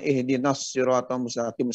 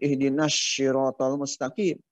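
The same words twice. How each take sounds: First: The s in siratal is heavy and emphatic. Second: The s in siratal is light and plain. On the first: The speaker calls it right. "harusnya ihdinas siratal mustaqim sad" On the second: The speaker calls it wrong. "Kadang-kadang tertukar dengan sin"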